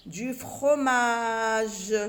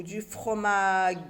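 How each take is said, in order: First: FROMAGE drawn out very slowly, ending "je"; correct soft g. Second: FROMAGE said "fromague", slowly; wrong hard g. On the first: (« fromage » très étiré, finale en « je ») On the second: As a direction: end "fromage" on a hard "gue". (« fromage » prononcé « fromague », g dur) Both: Shown as a demonstration. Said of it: "que c'est du fromage".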